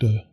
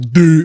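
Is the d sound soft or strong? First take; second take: soft; strong. First: The d sound is said softly and lightly. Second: The d sound is said strongly and hard. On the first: The speaker calls it right. "It's much softer" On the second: The speaker calls it wrong. "with that like strong way that I just did it"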